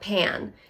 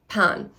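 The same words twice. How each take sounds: First: The vowel differs from the one in panna cotta. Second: The vowel matches the one in panna cotta. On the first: This is how many Americans say it. The speaker calls it wrong. "not pan" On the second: This is the German way to say it. The speaker calls it right. "the pan is like panna cotta, like pan"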